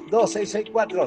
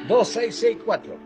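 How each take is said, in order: First: The number is said fast. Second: The number is said slowly.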